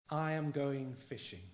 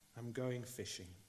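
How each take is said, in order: First: It is said in a plain, neutral tone. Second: It is said in a low, deflated tone.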